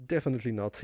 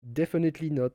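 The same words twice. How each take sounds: First: Said in the usual way. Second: "Definitely not" with a light French accent, the final t dropped; mock your own French accent on "Definitely not", "nɔ" without the t. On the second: Shown as a demonstration. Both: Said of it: "With the French accent".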